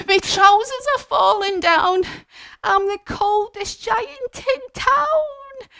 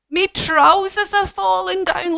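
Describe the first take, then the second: First: Much higher, slow mock wail; panicked cold giant. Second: High mock-panicked wail; alarmed giant. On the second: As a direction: cry it out in playful alarm. Giant's trousers falling.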